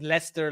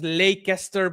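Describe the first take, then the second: First: The name is shortened to two syllables. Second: Every written syllable of the name is sounded. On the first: This is how the name is actually said. "but it's pronounced as Leicester" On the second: This is how the name is written. "it's written as Leicester"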